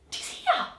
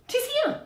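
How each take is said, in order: First: '"Tis here" whispered, unvoiced; '"Tis here" breathed out in a hush; breathless whisper. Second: '"Tis here" cried high and sharp; '"Tis here" yelped high in alarm; high startled cry. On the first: Second guard sees the ghost, breathless whisper. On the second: Acted. Guard spots the ghost beside him, high startled cry.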